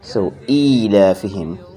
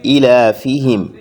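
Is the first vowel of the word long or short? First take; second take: long; short. First: The first vowel is held long. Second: The first vowel is said short. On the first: The speaker calls it right. "we elongate the e sound" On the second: The speaker calls it wrong. "there is another common mistake in this verse"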